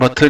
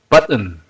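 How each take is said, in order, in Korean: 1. 한국 방식으로 발음해요. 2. 원래 영어 방식으로 발음해요. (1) "우리가 버튼 버튼 이렇게 했는데 못 알아들을 수가 있어요" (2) "버튼 이것도 button"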